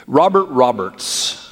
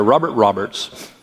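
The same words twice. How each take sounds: First: "Robert Roberts" said slowly, each word weighted; "Robert Roberts" drawn out slow with a falling tune; slow emphatic name. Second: Said in the usual way. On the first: Shown as a demonstration. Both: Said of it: "that's quite a name".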